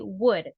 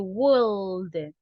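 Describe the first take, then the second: First: The L sound is silent in the word. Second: The L sound is pronounced in the word. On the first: The speaker calls it right. "We just say would" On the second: The speaker calls it wrong. "the L in this word, guys, is mute. We don't say would"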